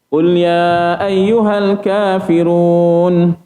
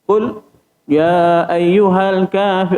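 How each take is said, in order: First: The words run on without any stop. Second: There is a brief stop after the first word. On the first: The speaker calls it right. "Terus je" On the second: The speaker calls it wrong. "dia macam ada saktah"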